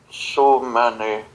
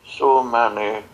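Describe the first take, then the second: No difference in how they are said.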